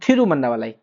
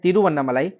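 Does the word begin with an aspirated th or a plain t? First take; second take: aspirated th; plain t. First: The word begins with an aspirated th sound. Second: The word begins with a plain t sound. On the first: This is how people in Tamil Nadu say it. "उसको वो लोग बोलते हैं थिरुवन्नामलाई" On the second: This is how it is commonly read elsewhere. "तिरुवन्नामलाई जो हम लोग पढ़ते हैं"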